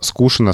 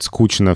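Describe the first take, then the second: First: The middle consonant is a sh sound. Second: The middle consonant is a ch sound. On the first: This older way will eventually disappear. "скучно со временем исчезнет" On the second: This is how young people increasingly say it. "молодежь говорит скучно все чаще и чаще"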